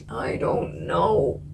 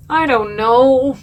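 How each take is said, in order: First: Slow, soft, deflated groan of indecision; defeated mumble. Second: Drawn-out, louder whine of indecision; exasperated whine. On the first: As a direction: let it sink, drawn out and quiet. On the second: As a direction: stretch it out in loud exasperation. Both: Real, not acted. Agonising over the decision.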